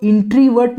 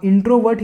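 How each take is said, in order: First: इंट्रीवर्ट with an ee sound in the middle, shown as the mistake; wrong pronunciation. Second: इंट्रोवर्ट with a short o in the middle; correct pronunciation. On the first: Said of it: "आप इंट्रीवर्ट नहीं बोलेंगे". (ग़लत उच्चारण: इंट्रीवर्ट, बीच में ई की आवाज़) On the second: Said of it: "आप इंट्रोवर्ट ही बोलेंगे". (सही उच्चारण: इंट्रोवर्ट, छोटी ओ की आवाज़) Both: Shown as a demonstration.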